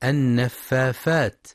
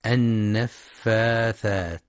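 First: النفافات said with f in place of th; mispronounced with f. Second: النفاثات slow with a clear th; correct th sound. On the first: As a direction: demo the child's mistake "النفافات". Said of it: "يبدلون الثاء فاء". (نطق خاطئ بالفاء) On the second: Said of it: "لنطقها الصحيح بالثاء". (نطق صحيح بالثاء) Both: Shown as a demonstration.

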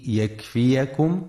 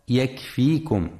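First: يكفيكم with fatha on the ya, yakfiyakum; correct reading. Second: يكفيكم with silent ya, yakfikum; wrong reading. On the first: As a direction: say يكفيكم with an open a after the y. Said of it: "لفتح الياء وعدم سكونها". (يكفيكم بفتح الياء) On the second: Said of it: "فلا يقرأ يكفيكم". (يكفيكم بسكون الياء خطأ) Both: Shown as a demonstration.

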